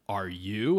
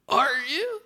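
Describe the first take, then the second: First: The voice is steady and cool. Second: The voice cracks partway through.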